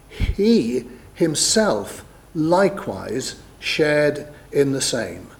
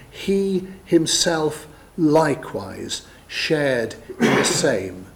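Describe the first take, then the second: First: Each word set apart, slow and weighty on "he himself likewise shared"; heavy emphasis. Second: "He himself likewise shared" word by word, slow, with pauses; emphatic repeat. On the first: Real, not acted. Preacher reading Hebrews to prove shared human nature, emphatic. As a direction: stress "he", "himself", "likewise" one by one with pauses. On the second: Shown as a demonstration. Preacher showing listeners the writer's emphasis, emphatic and deliberate. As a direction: underline "He", "himself" and "likewise" separately, drawn out.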